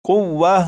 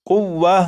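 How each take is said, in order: No difference in how they are said.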